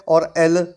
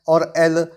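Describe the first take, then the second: No difference in how they are said.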